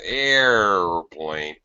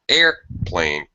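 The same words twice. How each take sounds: First: The pitch glides down slowly between the parts. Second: The pitch drops abruptly from high to low. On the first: The speaker calls it wrong. "We don't do it like that" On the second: The speaker calls it right. "It's extremely fast"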